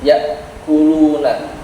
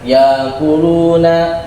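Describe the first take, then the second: First: A held throat catch comes before kuluna. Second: No held throat catch comes before kuluna. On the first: The speaker calls it right. "Hamzah ini punya sifat suaranya tertahan" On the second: The speaker calls it wrong.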